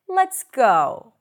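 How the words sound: The voice rises at the end.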